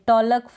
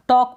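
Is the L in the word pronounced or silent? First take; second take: pronounced; silent. First: The L sound is pronounced. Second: The L sound is silent. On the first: The speaker calls it wrong. "ऐसे नहीं पढ़ेंगे" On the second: The speaker calls it right. "टॉक पढ़ेंगे"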